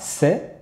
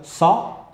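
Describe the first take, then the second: First: The s sound is plain, without emphasis. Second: The s sound is emphatic and heavy. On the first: The speaker calls it right. "lorsqu'elle aura une fatha, on dira" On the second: The speaker calls it wrong. "ne pas créer d'emphase... Pas faire de"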